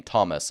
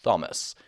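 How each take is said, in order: First: Said in the usual way. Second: Lisped TH opening on "Thomas". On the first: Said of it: "This is why the name Thomas". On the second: Shown as a demonstration. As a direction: start "Thomas" like "thumb", tongue on the teeth. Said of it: "is not pronounced Thomas".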